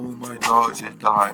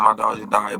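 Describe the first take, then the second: First: It is said in a sad, mournful tone. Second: It is said in a casual, offhand tone. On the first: The loss is taken seriously. The speaker calls it wrong. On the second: The loss is treated as a joke. The speaker calls it right.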